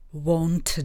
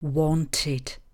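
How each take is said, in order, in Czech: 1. Před koncovým d se žádná samohláska neslyší. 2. Před koncovým d slyšíme samohlásku 'i'. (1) "by bylo téměř nevyslovitelné" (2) "samohlásku musíme vyslovit. Vyslovujeme ji jako i"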